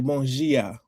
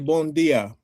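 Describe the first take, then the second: First: The d sounds like a j sound. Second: The d is a plain hard d sound. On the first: It is said the way people in Brazil say it. "in Brazil, they say ... they pronounce their D's as their J's" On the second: It is said the way people in Portugal say it. "In in Portugal, they'll say"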